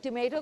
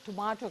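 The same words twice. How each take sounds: First: टमेटो with a long 'ay' middle vowel; टमेटो, middle syllable rhyming with 'may'. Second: टमाटो with a long 'ah' middle vowel; टमाटो, middle syllable rhyming with 'ma'. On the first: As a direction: say टमेटो as tuh-MAY-to. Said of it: "कुछ लोग टमेटो कहते हैं". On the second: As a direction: say टमाटो as tuh-MAH-to. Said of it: "कुछ लोग टमाटो कहते हैं". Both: Shown as a demonstration.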